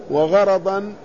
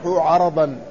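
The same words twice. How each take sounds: First: "وغرضا" said wa-gharadan, with gh; ghayn, open ra. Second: "عرضا" said 'ardan, no vowel after r; ayn, silent ra. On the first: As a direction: open both vowels of "وغرضا" to a, starting gh. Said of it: "بالغين المعجمة والراء المفتوحتين". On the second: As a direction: start "عرضا" with throaty ayn, close the r. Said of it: "بالعين المهملة وإسكان الراء". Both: Shown as a demonstration.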